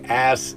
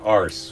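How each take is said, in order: First: The word is said without an R sound. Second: The word is said with an R sound. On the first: "when they say ass in England" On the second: "they put an R in there?"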